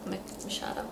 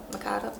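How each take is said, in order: First: Machado with a SH sound, "ma-SHAH-do"; hushed, hesitant "Ma-, Mashado" for Machado; trying out a pronunciation. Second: Machado with a hard K, "ma-KAH-do"; trying out a pronunciation. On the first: Reader checking the author's name to herself, hushed Machado with SH. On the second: Reader unsure of the author's name, softly trying Machado with a K sound. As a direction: say Machado as "Makado", softly, testing it. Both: Real, not acted. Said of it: "I have that spelled wrong there".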